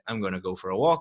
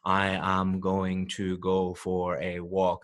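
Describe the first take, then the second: First: "I am" is contracted to one syllable. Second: "I am" is said as two full words. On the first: The speaker calls it right. "that is how native English speakers actually speak" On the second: The speaker calls it wrong. "I didn't say"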